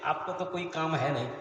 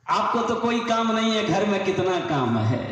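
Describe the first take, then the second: First: Said in the usual way. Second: Louder, indignant wifely complaint; scolding wife. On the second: Acted. Wife refuses husband who wants pajama shortened, loud scolding. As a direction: act out a wife telling him off loudly.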